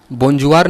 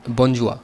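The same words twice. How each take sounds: First: बोंजुआर read with the final r sounded; wrong French reading. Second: बोंजुआ with a silent r, ending on the open a; correct French pronunciation. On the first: Teacher showing students the wrong reading, r sounded at the end. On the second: Teacher giving students the right French reading, r silent. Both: Shown as a demonstration. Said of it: "बोंजुआर नहीं बोलते".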